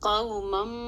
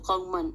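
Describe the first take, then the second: First: The word ends with an m sound. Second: The word ends with a clear n sound. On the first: The speaker calls it right. "उस तनवीन को उस मीम से बदल कर पढ़ना है" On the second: The speaker calls it wrong. "अगर मैं तनवीन को ज़ाहिर करती हूँ तो क़ौमन पढ़ेंगे इसको"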